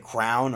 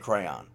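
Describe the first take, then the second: First: It is said as one syllable rhyming with down. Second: It is said as two syllables, cray-on. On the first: This is how some other people say it. The speaker calls it wrong. "Some other people say crown or cran" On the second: This is how the speakers say it. The speaker calls it right. "Like we say crayon, the right way"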